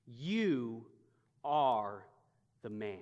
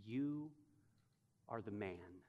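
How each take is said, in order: First: Each word set apart by long pauses; slow spaced confrontation; dramatic pauses. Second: Low and soft, pauses between words; almost a hushed verdict; the Lord's quiet accusation. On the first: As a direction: let each word land alone, deliberate. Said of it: "the confrontation". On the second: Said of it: "he now hears two more from the Lord". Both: Shown as a demonstration.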